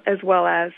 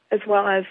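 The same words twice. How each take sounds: The two takes are said the same way.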